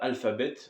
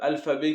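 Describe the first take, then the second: First: It ends in a clearly sounded English bet. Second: It ends in a silent t, the French way. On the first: The speaker calls it right. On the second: The speaker calls it wrong.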